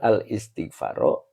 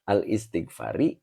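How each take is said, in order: First: The word ends with an a vowel. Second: The word ends with an i vowel. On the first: The speaker calls it wrong. "Ini yang benar al istighfaro" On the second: The speaker calls it right. "Maka wal istighfari"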